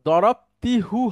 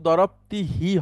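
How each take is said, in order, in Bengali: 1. শেষ সিলেবলটি 'u' স্বরধ্বনি দিয়ে উচ্চারিত হয়। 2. শেষ সিলেবলটি 'i' স্বরধ্বনি দিয়ে উচ্চারিত হয়। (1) "হওয়ার কথা ছিল" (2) "কিন্তু দরবতি হি হয়"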